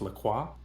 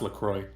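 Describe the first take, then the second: First: The name is pronounced the French way. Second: The name is pronounced the English way. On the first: This is how the name sounds in its source language. "in French, I believe it's French, it is pronounced La Croix" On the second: This is how the brand's maker says the name. "the creator of the drink was like, "Nah, it's LaCroix"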